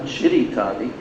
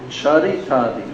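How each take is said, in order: First: The first vowel sounds like 'ee'. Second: The first vowel sounds like 'a'. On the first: The speaker calls it wrong. "It's not Chiritadi" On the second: The speaker calls it right.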